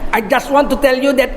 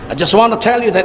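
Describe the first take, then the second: First: It is spoken with a Madurese accent. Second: It is spoken with a British English accent. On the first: It makes people laugh. The speaker calls it wrong. "bahasa Inggris logat Madura" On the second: It sounds pleasant. The speaker calls it right. "enaknya tuh bahasa Inggris, logat Inggris"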